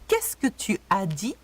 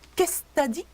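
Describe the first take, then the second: First: It is said slowly and fully. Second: It is said fast and reduced.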